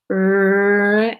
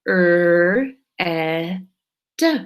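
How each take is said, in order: First: Slow stretchy teacher demo; stretched slowly. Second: "Er, eh, d" as separate sounds; segmented sound-by-sound demo; sounds one by one. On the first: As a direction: draw the word out long and slow. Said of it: "the stretchy way". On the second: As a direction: split red into its three sounds with small pauses. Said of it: "Or we can go like this". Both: Shown as a demonstration.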